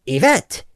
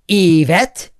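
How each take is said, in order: First: Said in the usual way. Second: Yvette with the first syllable punched, EE-vet; stress on first syllable. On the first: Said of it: "instead of the second". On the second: Shown as a demonstration. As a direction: hit the opening EE of Yvette. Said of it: "emphasize the first syllable".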